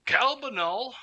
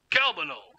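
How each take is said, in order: First: High, sing-out call rising at the end; questioning call. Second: High call sliding down at the end; falling call. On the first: Gnome calls for someone. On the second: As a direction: call CALBANUL high, then let it fall. Gnome calls for someone again. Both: Acted.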